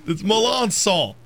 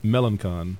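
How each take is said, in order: First: "Melancon" said meh-LAHN-sohn with a nasal end; French Melancon. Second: "Melancon" said MEL-an-con with a hard c; English Melancon. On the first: Shown as a demonstration. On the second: Real, not acted. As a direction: read "Melancon" as spelled.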